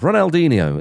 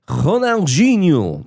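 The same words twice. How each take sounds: First: The name is said in an English-style pronunciation. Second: The name is said in a Brazilian-style pronunciation.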